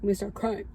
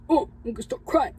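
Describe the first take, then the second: First: Fighting tears. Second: Real tears breaking through, faster; a real sob caught in the words; starting to cry. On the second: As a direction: voice cracking as the crying starts. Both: Real, not acted.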